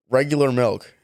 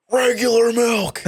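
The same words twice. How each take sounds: First: Said in the usual way. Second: High, slow parody of the shopper; mock customer voice. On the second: Clerk parrots the customer to his manager, high slow mockery. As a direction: echo him in a silly high drawn-out voice. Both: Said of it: "and I'm like".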